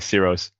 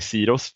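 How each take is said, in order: First: The name is said with English pronunciation. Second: The name is said with Swedish pronunciation. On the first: "in English, I just say Siros" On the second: "in Sweden, I would say Siros"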